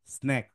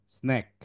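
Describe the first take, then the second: No difference in how they are said.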